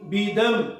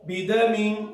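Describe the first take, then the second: First: The word ends cut short on a bare m. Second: The word ends with a full nasal -min ending. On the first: The reader stops at this word. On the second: The reader continues without stopping.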